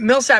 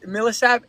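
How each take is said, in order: First: The name is said with two syllables. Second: The name is said with three syllables. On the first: "you say it Millsap now" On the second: "when I first heard you say it, you were like Mil- Millisap"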